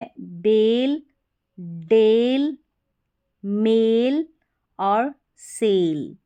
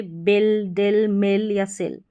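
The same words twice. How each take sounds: First: बेल, डेल, मेल, सेल with a long drawn ए like "ay"; long a sound. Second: बिल, डिल, मिल, सिल with a short "i" instead of the long ए; the wrong reading, short clipped i in बिल and सिल. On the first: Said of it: "लंबा उच्चारण है इसका". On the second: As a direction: show how not to say it, short i in मिल. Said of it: "आप इसको ऐसे नहीं बोल सकते". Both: Shown as a demonstration.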